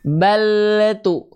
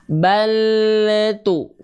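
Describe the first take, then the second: First: The word is said at normal speed. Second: The word is said very slowly.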